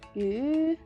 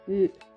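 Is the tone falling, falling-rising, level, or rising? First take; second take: rising; falling. First: The pitch rises throughout. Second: The pitch falls throughout. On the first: It means fish. "The second one we use rise tone and it means fish" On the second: It means meat. "And the last one we use fall tone and it means meat"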